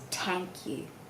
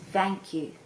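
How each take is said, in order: First: The first word begins with a T sound. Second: The first word begins with a V sound. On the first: "it's replaced with a hard sound" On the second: "The T H could also become like a V sound"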